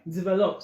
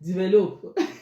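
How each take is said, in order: First: It is said in a standard pronunciation. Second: It is said in a Nigerian pronunciation.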